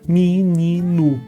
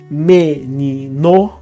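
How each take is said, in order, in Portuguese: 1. I reduzido e som de 'u' no final. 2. E pleno e som de 'o' no final. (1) "vira menino" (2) "em vez de menino"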